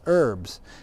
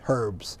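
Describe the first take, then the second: First: The word starts without any h sound. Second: The word starts with an audible h sound. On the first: This is the American way of saying it. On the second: This is the British way of saying it.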